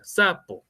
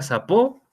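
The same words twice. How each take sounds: First: "sapo" with the force on the first syllable, SA-po; "sapo" stressed on the "sa", falling away. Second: "sapo" said as sa-PÓ, rising on the last syllable; "sapo" with a high, stressed final "po". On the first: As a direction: hit "sa" in "sapo", let "po" fall. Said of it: "porque la fuerza está ahí". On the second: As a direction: throw the stress onto the "o" of "sapo". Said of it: "tendría que ponerle la tilde en la O". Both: Shown as a demonstration.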